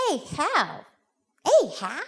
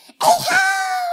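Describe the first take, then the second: First: Put-on higher, tentative questioning child; lightly voiced unsure little boy; little boy trying. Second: Very high, loud shout; little boy's shrieked fish call; excited boy calling. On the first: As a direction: try the new call as a question. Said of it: "he looks at his mother and he says". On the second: Acted. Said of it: "and he goes".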